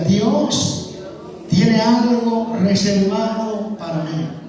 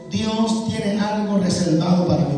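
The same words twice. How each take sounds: First: It is said with more authority and force. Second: It is said in a plain, ordinary way.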